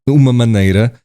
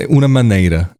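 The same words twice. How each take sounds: The two takes are said the same way.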